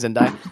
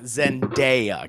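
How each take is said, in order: First: The middle vowel sounds like 'eye'. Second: The middle vowel sounds like 'ay'. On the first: The speaker calls it wrong. "What was I saying? ... saying it was an I" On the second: The speaker calls it right. "there was no I in her name"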